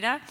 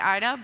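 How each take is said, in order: First: The name is pronounced the Polish way. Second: The name is pronounced the English way. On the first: "but they pronounce it, as you'll see, Ida" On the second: "in English, we would say Ida"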